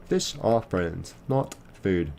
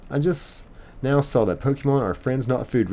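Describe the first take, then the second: First: Slow, deliberate quoting of the line; slow movie quote. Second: Said in the usual way. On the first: Retold or imitated. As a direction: savour each word like a famous catchphrase. Quoting Finding Nemo line.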